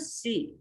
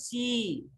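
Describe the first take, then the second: First: The vowel is kept short. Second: The vowel is held long. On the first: "छोटी सी है तो सी" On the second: "यदि बड़ी सी होती है तो सी"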